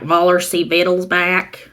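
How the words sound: It is said in a thick Southern accent.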